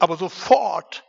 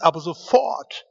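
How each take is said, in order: First: "aber sofort" louder, falling to a firm close; stress on sofort. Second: "aber sofort" louder, rising on aber; stress on sofort. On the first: Preacher repeating the verse, firm falling stress. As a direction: land "aber sofort" hard and down. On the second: Preacher stressing the Bible's word, rising emphasis. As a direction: lift "aber sofort" up and out loud. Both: Shown as a demonstration. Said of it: "heißt es nochmal".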